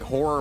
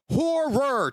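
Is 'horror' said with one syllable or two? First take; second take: one; two. First: It is squeezed into one syllable. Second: It is said with two clear syllables. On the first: The speaker calls it wrong. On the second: The speaker calls it right. "two syllables"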